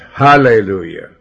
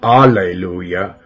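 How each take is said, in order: First: The word begins with an H sound. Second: The word begins without an H sound. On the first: The speaker calls it right. "but hallelujah. Let's say it right. The H stands for God" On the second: The speaker calls it wrong. "Not alleluia"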